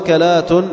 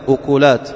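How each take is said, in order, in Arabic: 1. الحركتان الأوليان: فتحة وفتحة، مثل akalat. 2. الحركتان الأوليان: ضمة وضمة، مثل ukulat. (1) "بفتح الهمزة والكاف" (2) "ضم الهمزة مع ضم الكاف"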